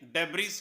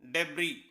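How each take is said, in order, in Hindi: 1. इस शब्द के अंत में s की ध्वनि सुनाई देती है। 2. इस शब्द के अंत में s की कोई ध्वनि नहीं होती। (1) "पढ़ने में देखने में ये डेब्रिस है" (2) "इसकी सही प्रोनाउंसिएशन होती है डेब्री"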